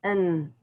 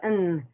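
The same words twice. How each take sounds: First: The word is cut down to a bare n. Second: The same.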